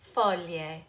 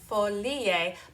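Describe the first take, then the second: First: The middle sounds join in one smooth glide. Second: An extra vowel sound is added before the ending. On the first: The speaker calls it right. "but rather there's this beautiful glide" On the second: The speaker calls it wrong. "be careful not to add an extra vowel in there"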